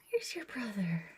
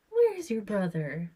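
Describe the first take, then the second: First: Soft whisper. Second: Said in the usual way. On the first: Real, not acted.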